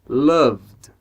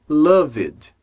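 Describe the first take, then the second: First: The V runs straight into a final D. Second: A vowel is sounded between V and D. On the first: The speaker calls it right. "a gente vai do som do V para o som do D" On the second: The speaker calls it wrong. "não pode ser loved"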